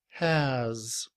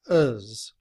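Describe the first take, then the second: First: It starts with an h sound and full vowel. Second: It has no h sound and a weak vowel. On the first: "with the letter H, the symbol that sounds like A, and Z" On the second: "In reduced form, has becomes uz, with the schwa and the letter Z. We do not pronounce the letter H"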